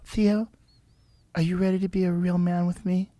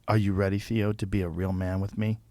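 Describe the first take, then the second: First: It is said in a put-on girl's voice. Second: It is said in his normal voice.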